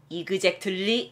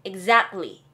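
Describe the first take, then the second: First: "exactly" sounded out slowly in even Korean syllables; slow Korean-style "exactly", every syllable voiced; wrong pronunciation. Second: "Exactly" with a pushed ZAC and a light -ly; correct pronunciation. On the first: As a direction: say "exactly" slowly as i-geu-jek-teul-li. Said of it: "아니고요". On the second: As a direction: push the middle of "Exactly", swallow the t. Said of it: "소리를 약간 밀어주신다고". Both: Shown as a demonstration.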